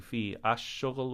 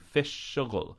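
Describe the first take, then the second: First: Each word is separate, with the article ash. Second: The words run together as fish shughul. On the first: The speaker calls it wrong. "we don't say fi ash shughul" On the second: The speaker calls it right. "we say fish shughul. Notice that we run them together"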